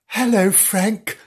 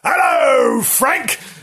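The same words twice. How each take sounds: First: It is said in a very gentle voice. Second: It is said in a very loud voice.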